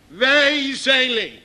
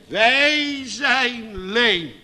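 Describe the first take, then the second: First: "Wij zijn leem" slow with "wij" stressed; emphatic slow. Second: "Wij zijn leem" very slow, stress on "wij"; slow solemn confession. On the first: Preacher to congregation, emphatic slow. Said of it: "preacher restates". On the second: Believer confessing to God, slow and solemn. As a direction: draw out every word. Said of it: "Dat ze zeggen". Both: Acted.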